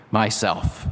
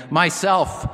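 First: Low, solemn self-naming; very deep and low. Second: Ringing and higher, a joyful declaration; loud, clear, joyful. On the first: The voice answers who it is, deep and low. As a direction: sink the voice low, weighty but restrained. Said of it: "very deep and low so that the earth shook". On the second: The voice answers a second time, loud and joyful. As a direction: proclaim it clearly and gladly, pitched up. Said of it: "loud and clear and joyful". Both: A narrator's reading.

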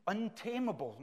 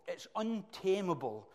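First: Preacher leans on untamable; stress on untamable. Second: Untamable stressed high with a long fall. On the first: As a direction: lift untamable then let it drop. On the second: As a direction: hammer home untamable. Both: Acted.

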